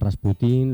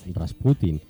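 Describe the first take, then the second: First: The stress is on the last syllable. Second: The stress is on the second-to-last syllable. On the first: The speaker calls it wrong. "lo decimos siempre con este acento agudo" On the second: The speaker calls it right. "lo que tendríamos que decir es el acento en la llana"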